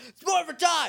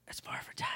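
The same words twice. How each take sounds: First: High, loud shouted battle cry. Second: Breathy whisper, no voice at all. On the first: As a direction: yell it out to the whole room. Tommy morphs in crowded room. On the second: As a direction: whisper the morph call secretly. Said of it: "And he whispers it". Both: Retold or imitated.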